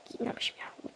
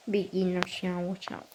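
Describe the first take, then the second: First: Soft unvoiced whisper. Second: Said in the usual way. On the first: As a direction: whisper it like a secret. Same words whispered right after.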